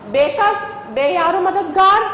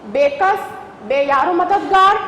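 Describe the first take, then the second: Both takes have the same delivery.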